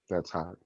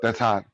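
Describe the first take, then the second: First: It is said flat and deadpan. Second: It is said with lively expression.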